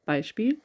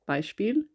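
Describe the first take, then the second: Both takes have the same delivery.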